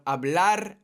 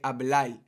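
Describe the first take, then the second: First: It ends with a standard R sound. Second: It ends with a Puerto Rican L sound.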